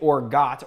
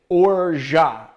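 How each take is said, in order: First: The final T sound is pronounced. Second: The final T sound is left silent. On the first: The speaker calls it wrong. "you don't say it orgat" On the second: The speaker calls it right. "You say orgeat, and you don't pronounce the T"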